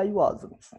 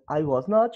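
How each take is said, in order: First: Was and not are joined into one contracted word. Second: Was and not are said as two full words.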